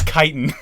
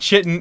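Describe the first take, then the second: First: The word begins with a k sound. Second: The word begins with an sh sound. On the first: The speaker calls it right. "I even put the word kite, K I T E, dash I N" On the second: The speaker calls it wrong. "it's not chitin"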